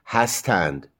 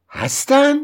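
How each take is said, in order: First: Said in the usual way. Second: "هستن" very high, as a question; questioning tune. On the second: Shown as a demonstration. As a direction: ask "هستن" with the pitch right up. (لحن سوالی «هستن»)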